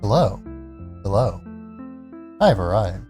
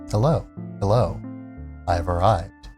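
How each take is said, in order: First: The greeting is said in an odd, unusual tone. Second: The greeting is said in a normal, familiar tone. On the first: The speaker calls it wrong. "That was a weird tone of voice that I don't usually deliver that line in" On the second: The speaker calls it right. "That's more like it"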